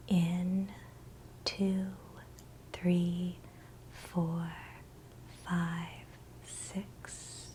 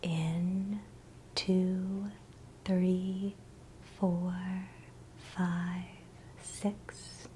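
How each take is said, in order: Both takes have the same delivery.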